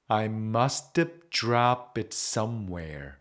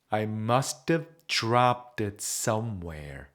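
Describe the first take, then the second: Both takes have the same delivery.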